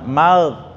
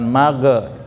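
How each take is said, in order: First: The final consonant is held without any bounce. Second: The final consonant bounces with an added vowel. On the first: The speaker calls it right. "karena dia nggak bukan kol-kolah" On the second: The speaker calls it wrong. "bukan mage"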